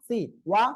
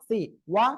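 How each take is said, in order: The two takes are said the same way.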